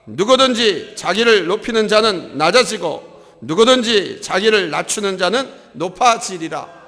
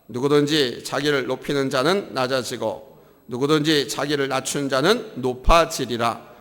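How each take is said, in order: First: It is read louder with a higher pitch. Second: It is read at normal volume and pitch.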